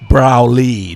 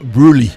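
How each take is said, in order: First: The first syllable rhymes with 'cow'. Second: The first syllable rhymes with 'too'. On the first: The speaker calls it right. "And also Browley" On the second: The speaker calls it wrong. "not Bruley"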